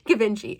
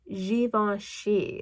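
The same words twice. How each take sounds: First: The name is read out as spelled. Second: The name is said in its native form. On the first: The speaker calls it wrong. "I'm going to say them how I pronounce them" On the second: The speaker calls it right. "how we're supposed to pronounce it is"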